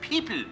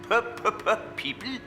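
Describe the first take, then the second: First: The first sound is said only once. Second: The first sound is repeated several times. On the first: The speaker calls it right. "Simply say it once" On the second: The speaker calls it wrong. "Don't say the P three times"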